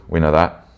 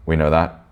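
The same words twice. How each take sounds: The two takes are said the same way.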